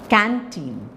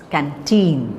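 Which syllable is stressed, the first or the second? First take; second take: first; second. First: The stress is on the first syllable. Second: The stress is on the second syllable. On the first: The speaker calls it wrong. "So it's not canteen" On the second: The speaker calls it right. "it's canteen"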